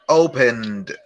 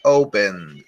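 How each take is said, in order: First: Said in the usual way. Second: Opened repeated lower, falling. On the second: Shown as a demonstration. Teacher repeating opened low for the class. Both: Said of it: "Open, abrir, opened".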